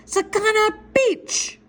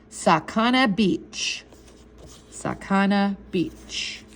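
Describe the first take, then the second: First: Very high, stretched-out yell; yelled magic word. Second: Very slow, measured pronunciation; slow and deliberate. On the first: Boy yelling the magic word at the guards, high yell. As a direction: holler it up at the guards, drawn out. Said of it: "yell out the magic word real loud". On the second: Older boy teaching a kid the magic word, slow and deliberate. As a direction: set out "Sakana Beach" word by word, slowly. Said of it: "pronounce the words very slowly and deliberately". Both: Acted.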